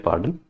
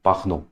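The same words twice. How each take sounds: First: "pardon" said the English way; English pronunciation. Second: "pardon" said the French way; "pardon" with a throaty r and nasal last vowel, no final n; French pronunciation. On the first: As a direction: say "pardon" as in English, with the final n sounded. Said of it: "we call it pardon". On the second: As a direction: say "pardon" as in French: par-DON with silent n. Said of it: "but we call it". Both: Shown as a demonstration.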